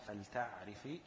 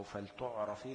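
First: فلتعرفي said feltaʕrifi with a after t and i after r; فلتعرفي: fel-taʕ-ri-fi; one allowed reading. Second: فلتعرفي said feltuʕrefi with u after t and e after r; فلتعرفي: fel-tuʕ-re-fi; other allowed reading. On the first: (فلتعرفي تُنطق فَلْتَعْرِفي) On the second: (فلتعرفي تُنطق فَلْتُعْرَفي) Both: Shown as a demonstration. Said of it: "الاتنين صح".

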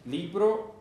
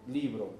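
First: Libro said higher with a rising tune; rising model word. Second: Said in the usual way. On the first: Shown as a demonstration. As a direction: hold up Libro as a bright question.

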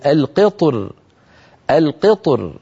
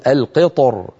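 First: القطر ending on a thin light r. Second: القطر ending on a thick heavy r. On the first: Teacher shows the light reading of القطر. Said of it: "يرققها". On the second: Teacher shows the heavy reading of القطر. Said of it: "يفخم الراء". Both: Shown as a demonstration.

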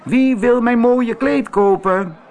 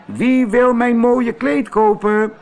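First: High, loud calling out again; loud market call. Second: High, loud calling out to buyers; loud market call. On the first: Antonio roept opnieuw over de markt: luid roepend. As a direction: shout it down the market. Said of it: "terwijl hij riep". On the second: Antonio roept op de markt: luid en hoog omroepend. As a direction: hawk it across the market. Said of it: "riep hij zo hard hij kon". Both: Acted.

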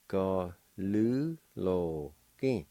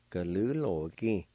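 First: "Ga lu lo ki" very slowly, syllables apart; slow syllable demo. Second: Said in the usual way. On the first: Shown as a demonstration. Teacher slowly models Cherokee word for delinquent. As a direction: drag out each syllable. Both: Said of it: "It's pronounced like this".

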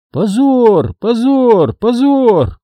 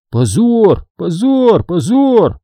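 First: Higher chanted jeer; chanted, lightly voiced shaming crowd; chanting shame. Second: Higher chanted scolding; chanted, lightly voiced shaming crowd; chanting shame. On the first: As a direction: chant it mockingly. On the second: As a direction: chant it in rhythm. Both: A narrator's reading. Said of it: "повторяли они снова и снова".

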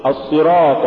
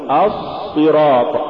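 First: Said in the usual way. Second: الصراط with a long drawn-out ص; overdone sad. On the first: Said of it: "قل". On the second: Shown as a demonstration. Teacher warning against exaggeration, overlong ص in الصراط. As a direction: drag out the ص in الصراط. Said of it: "ولا تقل".

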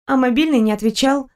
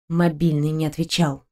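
First: Stella's light voice. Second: Bitter quiet echo. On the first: Stella quoted. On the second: Narrator echoes bitterly. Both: Acted.

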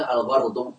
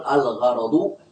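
First: الغرض said al-gharḍu, no vowel after the r; r runs straight into ḍu in الغرض; mispronunciation shown. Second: الغرض said al-gharaḍu, with an a after the r; correct fatha vowel. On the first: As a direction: drop the middle vowel of الغرض: ghar-ḍu. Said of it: "وهذا ليس صحيحا". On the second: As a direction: give الغرض its middle fatha: gha-ra-ḍu. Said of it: "هنا بفتح العين". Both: Shown as a demonstration.

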